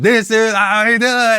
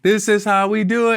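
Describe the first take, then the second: First: It is shouted loudly with rough energy. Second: It is said softly and cleanly, like a choir. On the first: The speaker calls it right. "Just shout it out" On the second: The speaker calls it wrong. "that's too nice. Like, it sounds too clean, like it's a choir"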